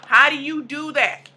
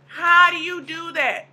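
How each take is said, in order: First: Said in the usual way. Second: How drawn out higher and slower; emphatic repeat. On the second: Shown as a demonstration. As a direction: lean on How, slower the second time.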